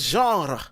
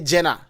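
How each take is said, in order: First: It is pronounced the French way. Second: It is pronounced the Ghanaian way. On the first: "In French" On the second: "Ghanaian say Jenna, but it's not Jenna"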